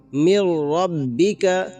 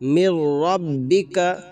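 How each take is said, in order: No difference in how they are said.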